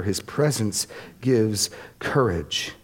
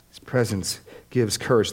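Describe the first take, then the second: First: Slow, deliberate. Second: Courage leaned on with a falling close; stress on courage. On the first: Preacher repeats a key line to the congregation, slow and deliberate. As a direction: lay each word down slowly. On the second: Preacher repeats a key line, pressing on courage. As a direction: land firmly on the word courage. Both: Real, not acted.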